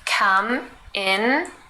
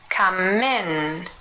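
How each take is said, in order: First: The two words are said separately. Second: The m runs into in, like min.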